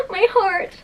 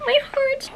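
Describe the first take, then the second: First: High, crying gush. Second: Even higher gush. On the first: Moved by an illustration, a high gushing cry. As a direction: clutch at your heart in delight. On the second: Echoing herself over the illustration, higher and melting. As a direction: let it melt up higher. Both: Real, not acted.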